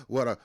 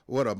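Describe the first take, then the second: No difference in how they are said.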